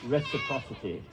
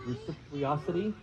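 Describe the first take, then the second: First: "reciprocity" as "RESS-a-PROSS-ity", British style; mock-British "reciprocity", each syllable in place; British pronunciation. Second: Reciprocity said as "re-sip-ee-OSS-ity", questioning; unsure, botched "reciprocity" with rising end; stumbled pronunciation. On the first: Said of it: "I gotta say it like the British". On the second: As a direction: trip over "reciprocity", dropping the r, softly. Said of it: "I can never say the word". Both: Shown as a demonstration.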